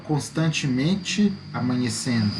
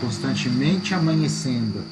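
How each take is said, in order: First: The final e and initial a are said separately. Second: The final e and initial a merge into one. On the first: The speaker calls it wrong. "Eu não falo" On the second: The speaker calls it right. "Eu falo constantemente amanhecendo. Quase é uma emissão só"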